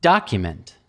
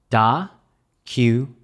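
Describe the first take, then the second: First: Said in the usual way. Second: "Da-cu-ment" in three slow, separate syllables. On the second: Shown as a demonstration. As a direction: break "Da-cu-ment" up slowly, pausing after each syllable. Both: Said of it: "American pronunciation of document".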